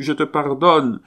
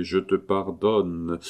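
First: Higher and louder, almost crying it out; desperate forgiveness. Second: Solemn slow pardon. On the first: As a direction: shout the pardon to make her hear. Husband begs his dead wife. (pardon crié, plus aigu et plus fort) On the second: Blessing over dead wife. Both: Acted.

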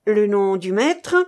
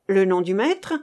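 First: Louder stress on "nom", rising on "maître"; insistent repeat. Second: Said in the usual way. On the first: A narrator's reading. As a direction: lean hard on "nom", ask up on "maître". Interrogator repeats the unanswered question. («nom» appuyé, «maître» montant)

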